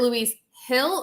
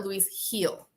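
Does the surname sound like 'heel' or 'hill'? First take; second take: hill; heel. First: The surname has the short vowel of 'hill'. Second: The surname has the long vowel of 'heel'.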